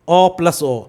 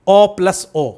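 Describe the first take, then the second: Both takes have the same delivery.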